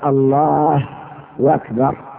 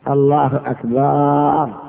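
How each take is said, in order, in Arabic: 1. صوت الواو يربط بين «الله» و«أكبر». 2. الحركة بعد الباء في «أكبر» تُمدّ. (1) "يقلب الضمة واوا" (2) "يمد"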